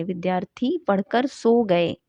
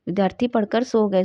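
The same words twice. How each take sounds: First: Slow, deliberate dictation of "विद्यार्थी पढ़कर सो गए"; slow dictation read. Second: Said in the usual way. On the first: Shown as a demonstration. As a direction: read the sentence out slowly, each word clear.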